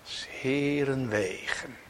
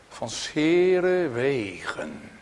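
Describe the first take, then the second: First: 's Heeren wegen slow and soft, Heeren rising; softer echo. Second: 's Heeren wegen slow, stressed on Heeren; emphasised phrase. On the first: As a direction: echo it quietly. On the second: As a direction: lean on Heeren. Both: Shown as a demonstration. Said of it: "Hoort u?".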